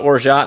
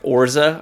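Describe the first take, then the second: First: The word is said as spelled, ending in 't'. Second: The word ends in an open 'ah' vowel. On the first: "I've just always called it orgeat" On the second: "I think the actual pronunciation is like orza"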